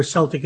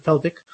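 First: "Celtic" said SEL-tik; "Celtic" pronounced SEL-tik; soft S. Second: "Celtic" said KEL-tik; "Celtic" pronounced KEL-tik; hard K. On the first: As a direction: give "Celtic" an initial S. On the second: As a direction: give "Celtic" an initial K. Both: Shown as a demonstration. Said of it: "We should be able to use both".

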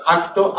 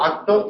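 First: "Acto" with k voiced like g. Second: "acto" with a hard unvoiced k; wrong k in acto. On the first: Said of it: "y no acto". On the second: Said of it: "y no". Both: Shown as a demonstration.

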